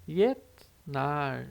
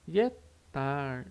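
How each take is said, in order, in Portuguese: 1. O consoante do meio é um t seco, sem soltura. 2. O consoante do meio é um t seco, sem soltura.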